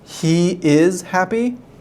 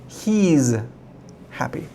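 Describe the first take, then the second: First: Two full words are said, he and is. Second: The words are joined into one short word. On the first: "but I don't say that" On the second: "There's a contraction"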